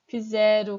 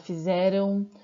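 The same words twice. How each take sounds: First: The verb ending is shortened. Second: The verb ending is said in full. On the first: This is the everyday spoken form. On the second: This is the complete standard form.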